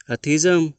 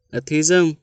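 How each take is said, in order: Both takes have the same delivery.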